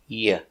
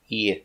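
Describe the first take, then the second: Both takes have the same delivery.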